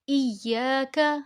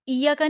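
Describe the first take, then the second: First: The long vowel is held for two counts. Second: The long vowel is cut short. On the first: The speaker calls it right. "इसको लंबा करना है" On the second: The speaker calls it wrong. "इया का नहीं पढ़ना"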